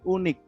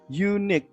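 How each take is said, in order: First: The word begins with a plain 'oo' vowel. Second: The word begins with a 'you' sound. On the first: The speaker calls it wrong. "bukan unik ya" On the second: The speaker calls it right. "Kalau ini dibacanya adalah you, unique"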